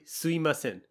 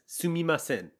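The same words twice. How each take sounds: First: The middle mi sound is reduced to i. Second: The middle mi sound is fully pronounced. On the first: It is a common casual way to say it. "often the mi sound turns into an i, so it's simply" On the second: It is the more formal way to say it. "pronounce it more formally as"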